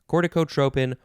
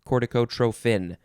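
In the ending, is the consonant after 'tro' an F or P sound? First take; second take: P; F. First: The ending is said with a P sound. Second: The ending is said with an F sound. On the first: "instead of tropin" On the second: "with a F"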